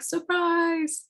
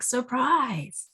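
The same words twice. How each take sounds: First: High, squeaky pop-up toy cry; jack-in-the-box surprise. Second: Lightly raised toy voice; a surprise with no one left to scare; tired jack-in-the-box. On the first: Jack-in-the-box jumps out at nobody, high and gleeful. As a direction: burst out like a toy springing from its box. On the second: Jack-in-the-box pops out again to a blank screen, half-hearted. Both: Retold or imitated. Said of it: "he's like".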